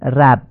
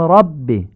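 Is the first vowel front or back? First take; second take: front; back. First: The vowel is a front, Persian-style a. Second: The vowel is a short, back, open a. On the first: The speaker calls it wrong. "یا نمیگیم رب" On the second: The speaker calls it right. "میگیم رب... ر آی کوتاه خوانده میشه"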